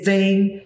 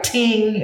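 First: Said in the usual way. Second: "ting" with a plain t, no th sound; Gullah "ting". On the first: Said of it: "they say". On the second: Shown as a demonstration. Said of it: "I use word like ting and they say".

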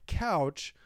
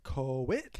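First: Said in the usual way. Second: "coach" drawn out as "co-witch", rising; Minnesota coach. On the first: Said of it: "but not a couch". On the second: Shown as a demonstration. Explaining it's not couch, "coach" as slow "co-witch". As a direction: add half a syllable to "coach", a W after the O. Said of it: "but it's like coach".

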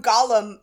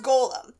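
First: "Gollum" with a short open first vowel, GOL-um; contrasting pronunciation. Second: "golem" with a long O, as in goal; correct pronunciation. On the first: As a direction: say "Gollum" like the Tolkien creature's name. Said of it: "which is different from Gollum". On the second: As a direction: say "golem" as GOH-lem. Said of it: "it's pronounced golem". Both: Shown as a demonstration.

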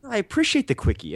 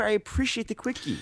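First: Raised, playful pitch; high mock voice. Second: High, softer, altered voice; high put-on voice. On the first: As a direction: say it high and teasing. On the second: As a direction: repeat it in a silly put-on voice. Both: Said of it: "repeated line as a bit".

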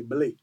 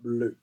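First: "blé" said blay; Creole pronunciation. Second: "bleu" said with rounded "eu"; French pronunciation. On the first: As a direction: end "blé" on an unrounded "ay". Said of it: "So that's Creole". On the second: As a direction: round the lips on the vowel of "bleu". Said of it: "In French, we say". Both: Shown as a demonstration.

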